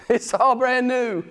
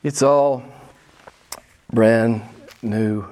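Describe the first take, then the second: First: "It's all brand new" slowed and lifted, leaning on "all"; slow emphatic. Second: "it's all" ... "brand" ... "new" with long pauses, "brand" low and punched; spaced out. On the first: Preacher tells new believers life is fresh, slow and emphatic. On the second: Preacher hammers home the new life, word by word with pauses. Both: Shown as a demonstration.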